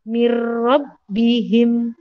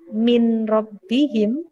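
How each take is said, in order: First: The n merges straight into the r. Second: The n is pronounced before the r. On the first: The speaker calls it right. "langsung masuk ke huruf ro" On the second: The speaker calls it wrong. "bukan min rabbihim. Salah"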